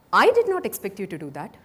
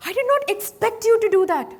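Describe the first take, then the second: First: "did" pushed with a rising tune; stress on did. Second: "not" hit high and loud; stress on NOT. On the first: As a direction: lean on "did", lift the end. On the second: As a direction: punch the word "not" hard, falling end. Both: Shown as a demonstration. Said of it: "by stressing different words".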